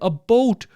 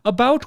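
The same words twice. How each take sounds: First: It is said with a Canadian accent. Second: It is said with an American accent. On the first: "saying it with a Canadian accent" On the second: "me saying it with an American accent"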